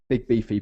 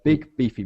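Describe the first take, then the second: First: The two words run together without a pause. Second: A short pause separates the two words. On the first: The speaker calls it wrong. "Not big beefy" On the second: The speaker calls it right. "there should be a, a pause, yeah, a little pause"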